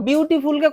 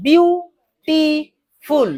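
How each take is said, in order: First: Said in the usual way. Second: beautiful split into three long, separate beats; beautiful drawn out slowly, higher, one syllable at a time. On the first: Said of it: "কবারে বলছি". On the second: Shown as a demonstration. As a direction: break beautiful slowly as বিউ, টি, ফুল with pauses. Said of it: "বিউটিফুলকে কবারে বলছি".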